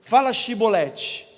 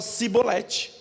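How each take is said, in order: First: "Shibolete" with a clear sh at the start, slow and loud; "Shibolete" said the right way, with sh; correct Shibolete. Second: "cibolete" with a plain s instead of sh; lisp-free s sound in "cibolete", the outsider's way; "cibolete" said with s, the mistaken form; wrong pronunciation. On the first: Shown as a demonstration. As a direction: stress the sh in "Shibolete" deliberately. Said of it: "É pela pronúncia". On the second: Retold or imitated. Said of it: "ele falava cibolete".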